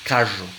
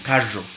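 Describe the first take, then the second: The two takes are said the same way.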